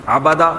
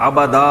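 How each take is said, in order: Both takes have the same delivery.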